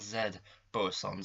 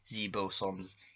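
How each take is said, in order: First: Z is said the speaker's own non-American way. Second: Z is said the American or Canadian way.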